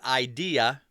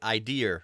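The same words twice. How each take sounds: First: The word ends in a plain vowel, no R. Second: The word ends with an added R sound. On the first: "like it should be" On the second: "a lot of Mainers will say idea"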